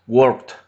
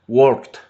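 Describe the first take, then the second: The two takes are said the same way.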